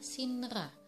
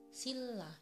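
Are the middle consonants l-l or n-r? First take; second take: n-r; l-l. First: The middle consonants are n followed by r. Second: The middle consonants are a double l. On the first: The speaker calls it wrong. "harusnya dibaca sinra" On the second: The speaker calls it right. "tapi yang benar pengucapannya adalah silla"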